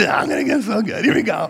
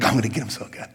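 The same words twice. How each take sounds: First: Higher and louder gleeful boast. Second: Sly scheming. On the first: Poster ready to post, higher gleeful boast. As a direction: crow it out, hammed-up glee. Same words, gleeful second take. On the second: Poster plotting a comeback, low and sly. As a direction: plot it under your breath. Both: Retold or imitated.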